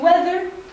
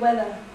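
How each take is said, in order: First: The final R is pronounced. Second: The final R is dropped. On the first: "Americans pronounce all R's at the end of a syllable. So I say weather" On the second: "British people might say weather"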